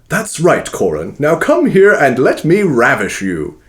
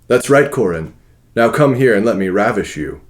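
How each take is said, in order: First: It is read in a put-on voice for Leopold. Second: It is read in the reader's natural voice.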